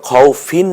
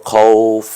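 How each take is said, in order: First: খাউফিন with the final "-in" sounded; full case ending. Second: খাউফ closed on a vowelless f; stopped ending. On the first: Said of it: "খাউফিন না হয়ে". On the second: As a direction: stop on the f of খাউফ, no "-in". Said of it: "আমরা বলবো খাউফ". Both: Shown as a demonstration.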